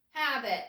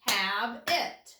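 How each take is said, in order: First: Said in the usual way. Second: "Have it" as two separate beats, hab, it; syllable by syllable. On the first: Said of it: "That one is habit". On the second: Shown as a demonstration. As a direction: break "Have it" cleanly between its two syllables. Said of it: "one for each syllable".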